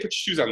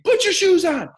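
First: It is said at a lower volume. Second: It is said at a higher volume.

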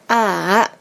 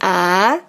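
First: The pitch dips down and then rises. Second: The pitch rises from low to high. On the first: "yang ketiga kan tanda centang tuh" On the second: "yang kedua itu kan dari bawah ke atas ya"

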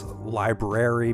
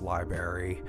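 First: All sounds in the middle are kept. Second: A sound in the middle is dropped. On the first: The speaker calls it right. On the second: The speaker calls it wrong.

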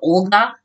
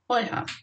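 First: The name has a hard G sound. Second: The name has a soft H sound. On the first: This is the Russian pronunciation. The speaker calls it wrong. "pronounced with that stupid G sound" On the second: This is the Ukrainian pronunciation. The speaker calls it right. "pronounced Oyha"

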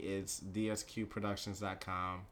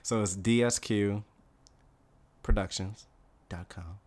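First: It is said at a normal, quicker pace. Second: It is said more slowly.

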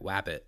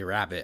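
First: The R sound is replaced by another sound. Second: The R sound is said clearly. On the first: This is how a speech impediment made it sound. The speaker calls it wrong. "I'd be like wabbit" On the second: This is how the word should be said. The speaker calls it right. "they'd say rabbit"

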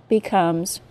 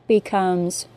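The two takes are said the same way.

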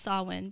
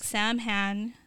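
First: It is said with a w sound, 'Sow-in'. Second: It is said as spelled, 'Sam-hane'. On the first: The speaker calls it right. "but it's pronounced Samhain" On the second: The speaker calls it wrong. "to me, it looks like Samhain"

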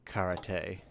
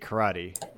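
First: It is said with a Japanese-style pronunciation. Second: It is said with an American English pronunciation. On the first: "in the proper pronunciation of it" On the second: "the way the Americans say karate"

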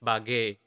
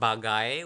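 First: The second syllable is reduced to a plain 'e'. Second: The second syllable ends in a full 'ai' diphthong. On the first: The speaker calls it right. "It's bage" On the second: The speaker calls it wrong. "it is not bagai when you saying it quickly"

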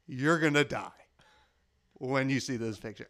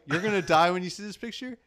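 First: It is said with a pause after die. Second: It is said without a pause after die.

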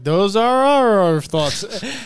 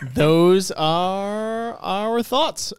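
First: The phrase is said quickly. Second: The phrase is said at a normal pace.

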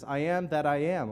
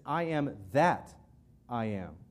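First: The word 'that' is not stressed. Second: The word 'that' is stressed.

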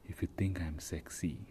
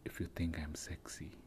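First: It is read in a plain voice. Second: It is read in a put-on sexy voice.

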